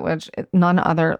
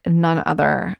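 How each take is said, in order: First: Said in the usual way. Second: "none other" repeated slowly, leaning on "none", voice rising at the end; slow emphatic repeat. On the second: Shown as a demonstration. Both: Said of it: "like, none other".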